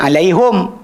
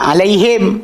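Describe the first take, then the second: First: The word ends with a u vowel after h. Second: The word ends with an i vowel after h. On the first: This is one tribe's reading. "Kalau kabilah A baca alaihum" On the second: This is the Quraysh reading. "kabilah Quraisy baca alaihim"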